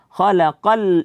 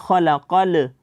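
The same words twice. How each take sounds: First: The final L is light and not bounced. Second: The final L is bounced with an echo. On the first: The speaker calls it right. "lamnya jangan sampai dibaca tebal" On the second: The speaker calls it wrong. "jangan dibaca khalaqal, jangan dipantulkan bunyi daripada huruf lamnya"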